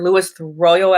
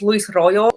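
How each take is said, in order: First: The name is said with American English sounds. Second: The name is said with Spanish-style sounds.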